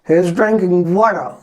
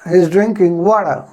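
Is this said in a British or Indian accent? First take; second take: British; British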